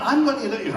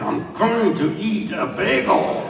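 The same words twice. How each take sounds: First: Said in the usual way. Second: Each word of "I'm going to eat a bagel" drawn out slowly; slow and deliberate. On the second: Shown as a demonstration. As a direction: spell out every word with grim patience.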